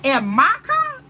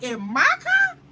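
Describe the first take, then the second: First: Louder, higher outraged retold yell; livid outburst. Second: Outraged disbelief. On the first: Friend learns her man took her car, outraged yell. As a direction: let the disbelief burst out loud. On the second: Retold or imitated. Friend repeats her shock about her car, high outraged cry. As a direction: pitch the question way up in outrage. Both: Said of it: "She was livid".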